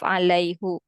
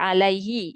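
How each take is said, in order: First: The final vowel is a 'u' sound. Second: The final vowel is an 'i' sound. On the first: The speaker calls it wrong. "instead of alaihu" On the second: The speaker calls it right. "we say alaihi"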